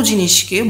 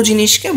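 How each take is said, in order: Both takes have the same delivery.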